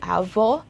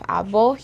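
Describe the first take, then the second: First: The consonant is a v sound. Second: The consonant is a b sound. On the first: The speaker calls it right. "In English, we have the letter V" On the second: The speaker calls it wrong. "in Tagalog, we have there the letter B"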